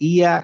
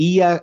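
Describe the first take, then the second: Both takes have the same delivery.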